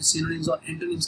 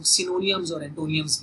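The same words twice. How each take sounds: First: Said in the usual way. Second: "सिनोनियम्स और एंटोनियम्स" with an extra "ya" before each final "ms"; common variant pronunciation. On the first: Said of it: "जिनको अक्सर लोग". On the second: Shown as a demonstration. Teacher showing students how people often say the terms, variant pronunciation with "-iyams". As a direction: say "सिनोनियम्स और एंटोनियम्स" ending in "-iyams", not "-ims". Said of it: "अक्सर लोग ... भी कहते हैं".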